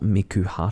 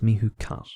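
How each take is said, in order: First: The name is said as 'Miku Hut'. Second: The name is said as 'Mihu Cut'. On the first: The speaker calls it wrong. "it's not Miku Hut" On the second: The speaker calls it right. "It's Mihu Cut"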